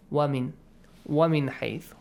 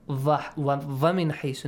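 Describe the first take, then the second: First: The first word starts with a w sound. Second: The first word starts with a v sound. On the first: The speaker calls it right. "This is wa, the sound of w" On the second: The speaker calls it wrong. "Make sure it's not va. ... No. We don't have va in Arabic"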